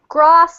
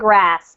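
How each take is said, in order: First: It is said with a British pronunciation. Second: It is said with an American pronunciation. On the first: "Grass is a very British pronunciation" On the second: "That's American. That's fine"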